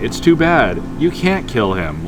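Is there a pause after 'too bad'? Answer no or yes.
yes. There is a break after 'too bad'. It is a plea not to kill the dog. "whether that period's there or not changes the whole meaning"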